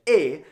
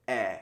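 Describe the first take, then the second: First: "eh" lifted and louder, like "ay"; closed "eh" with the voice going up; accent aigu, going up. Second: "eh" open and dropping; accent grave, going down. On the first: Teacher contrasting aigu with grave, "eh" going up. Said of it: "it goes up like". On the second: Teacher contrasting grave with aigu, "eh" going down. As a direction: let the voice sink on an open "eh". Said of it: "it's gonna go down". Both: Shown as a demonstration.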